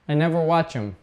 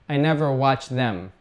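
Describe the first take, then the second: First: The 'th' of 'them' is dropped. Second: The 'th' of 'them' is fully pronounced. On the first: The speaker calls it right. "Let's cut off the T H" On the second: The speaker calls it wrong. "we don't normally say, ... That's robotic"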